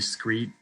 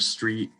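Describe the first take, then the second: First: The word begins with an s-k-r cluster. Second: The word begins with an s-t-r cluster.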